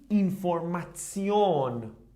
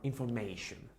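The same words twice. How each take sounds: First: The ending is pronounced like "tsion". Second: The ending is pronounced like "shun". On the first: The speaker calls it right. "it should be like Zion pronounced" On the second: The speaker calls it wrong. "We don't say anymore"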